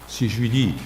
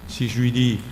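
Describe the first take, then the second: No difference in how they are said.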